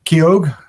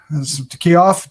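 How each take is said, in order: First: Keough said with a hard g at the end, like KEE-ohg; variant pronunciation. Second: Keough ending in an f sound, like KEE-off; variant pronunciation. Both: Shown as a demonstration. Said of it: "depending on how you want to pronounce it".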